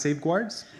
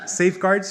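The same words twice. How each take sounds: First: "safeguards" with a w glide, like "safe-gwards"; safeguards mispronounced. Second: Said in the usual way. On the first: Shown as a demonstration. Student mock-decrees a new pronunciation, "safeguards" as safe-gwards. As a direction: slip a w into "safeguards" after the g. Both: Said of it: "shall be pronounced in the following manner".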